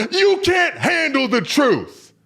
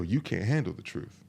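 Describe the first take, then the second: First: High, slow, full shout; Colonel Jessup. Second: Low, soft take on the film line; understated retort. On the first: Colonel on the stand answering his questioner, explosive drawn-out shout. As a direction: roar it out, stretching the words. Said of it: "to Colonel Jessup". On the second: Guys deflecting when asked for honesty, understated retort. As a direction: toss the famous line off quietly. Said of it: "what a lot of guys go". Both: Retold or imitated.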